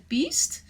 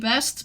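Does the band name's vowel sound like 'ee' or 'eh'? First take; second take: ee; eh. First: The vowel sounds like the one in 'feet'. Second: The vowel sounds like the one in 'bed'. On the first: Many other people say the name this way. "a lot of people pronounce it as Beast" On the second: This is the speaker's own reading of the name. "I would say"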